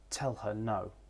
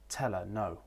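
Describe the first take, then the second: First: The h in 'her' is pronounced, weakly. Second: The h in 'her' is left out. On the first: "with the weak form" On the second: "with the elision"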